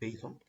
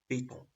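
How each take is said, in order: First: It is pronounced with an English accent. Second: It is pronounced with a French accent. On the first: "c'est un mot anglais, donc Python" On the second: "Le français, il prononce Python"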